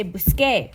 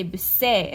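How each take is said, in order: First: Busqué with a hard K sound before the é. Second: Busé with an S sound instead of K; soft C sound. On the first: Teacher showing the wanted Spanish form, hard K in busqué. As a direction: say busqué with a K, stressed at the end. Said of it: "We want it to say busqué". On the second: Teacher showing the sound without the spelling change, S in busé. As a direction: say busé, the C softened to S. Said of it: "Without it, we would say busé". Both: Shown as a demonstration.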